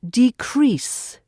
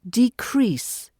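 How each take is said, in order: First: The stress is on the second syllable. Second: The stress is on the second syllable.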